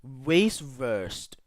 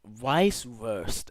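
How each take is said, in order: First: Weisswurst begun like "waste"; English W start. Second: Weisswurst begun with a V, like "vice"; slow Weisswurst with a German V sound. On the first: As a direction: say Weisswurst as "wayce-verst". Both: Real, not acted. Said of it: "that W is supposed to sound like a V".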